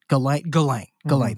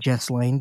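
First: The s sound in the name is silent. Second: The s sound in the name is pronounced. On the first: The speaker calls it right. "the correct pronunciation is Ghislaine" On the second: The speaker calls it wrong. "because there's an S in there, and I want to recognize that S"

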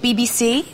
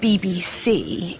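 First: The voice rises at the end. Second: The voice does not rise at the end.

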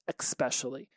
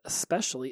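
First: The word begins with an 'ex' sound. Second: The word begins with an 'es' sound. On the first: The speaker calls it wrong. "it was especially" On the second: The speaker calls it right. "EX instead of ES. So instead of especially"

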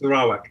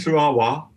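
First: The name ends with a final k sound. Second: The name ends without a final k sound. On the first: This is how everyone usually says it. The speaker calls it right. "So everybody uses Sarawak" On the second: This is how the name sounds locally. The speaker calls it wrong. "They think you might have a speech impediment"

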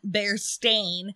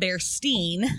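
First: The last syllable sounds like 'stain'. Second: The last syllable sounds like 'stine'. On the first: This is the official name. The speaker calls it right. "They said it's always been Berenstain" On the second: This is how many people remember it. The speaker calls it wrong. "not Berenstain"

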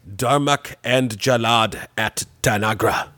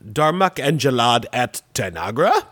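First: The pitch falls at the end like a statement. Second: The pitch rises at the end like a question. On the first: It is a plain statement. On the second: It is asked as a question.

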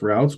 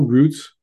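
First: It is said the non-Canadian way. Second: It is said the Canadian way.

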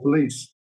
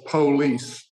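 First: It is said in a plain British way. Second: It is said in an American-style way. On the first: It is how English people normally say it. The speaker calls it right. "We say police" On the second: It copies how American singers say it. The speaker calls it wrong. "[name] says police"

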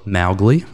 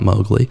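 First: The first syllable rhymes with cow. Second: The first syllable does not rhyme with cow. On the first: This is how the original book says the name. The speaker calls it right. "M-O-W, rhymes with cow, Mow. So Mowgli" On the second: This is how the movie says the name. The speaker calls it wrong. "and not Mowgli"

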